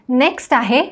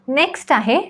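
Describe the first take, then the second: The two takes are said the same way.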